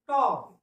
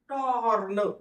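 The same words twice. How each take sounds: First: The r sound is barely heard. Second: The r sound is clearly pronounced. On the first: The speaker calls it right. "या ठिकाणी र चा उच्चार एकदम नकळत आहे" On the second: The speaker calls it wrong. "टॉर्न असं नाही"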